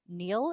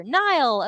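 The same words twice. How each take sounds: First: Neil said to rhyme with "feel"; American pronunciation. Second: Nile said like the river, higher and louder; corrected pronunciation. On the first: Real, not acted. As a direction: Neil with an "ee" vowel. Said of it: "gave you an American pronunciation". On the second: Shown as a demonstration. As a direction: say Nile with a long "eye" vowel, punched out. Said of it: "pronounced like the river".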